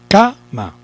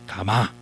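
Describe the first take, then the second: First: The stress is on the first syllable. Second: The stress is on the last syllable. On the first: The speaker calls it right. "Suponemos que es K y decimos" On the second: The speaker calls it wrong. "Suponemos que es ma y decimos"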